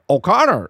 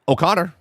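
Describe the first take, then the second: First: The name is said in an attempted Irish accent. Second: The name is said in the speaker's usual accent.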